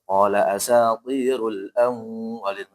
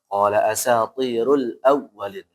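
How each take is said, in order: First: The doubled w is held with a nasal hum. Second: The doubled w is short and quick. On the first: The speaker calls it wrong. "Jadi enggak boleh" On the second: The speaker calls it right.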